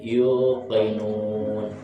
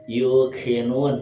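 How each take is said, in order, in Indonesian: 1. Konsonannya bunyi qaf yang dalam, dari tenggorokan. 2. Konsonannya bunyi k depan yang biasa. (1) "tapi yuqinun pakai qaf" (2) "bukan yuqinun"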